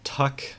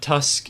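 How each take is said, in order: First: The syllable has no s sound before the k. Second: The syllable has an s sound before the k. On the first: The speaker calls it right. "it's Tuck" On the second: The speaker calls it wrong. "It's not Tusk"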